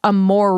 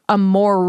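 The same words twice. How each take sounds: First: It is said with an American R. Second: It is said with an American R.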